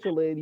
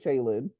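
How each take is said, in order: First: The first syllable sounds like 'chill'. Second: The first syllable sounds like 'chay'. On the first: "I always say it wrong. I say Chillin" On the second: "you say Chaylin"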